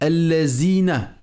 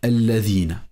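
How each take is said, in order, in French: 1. La consonne du milieu est un son z. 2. La consonne du milieu est un th sonore. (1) "avec un zay au lieu d'un zal" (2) "au lieu de dire alladhina"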